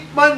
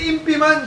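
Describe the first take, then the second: First: The first word has one syllable, 'ip'. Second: The first word has two syllables, 'im-pi'. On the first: The speaker calls it right. "siya si Ip man" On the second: The speaker calls it wrong. "Hindi yan si Impi man"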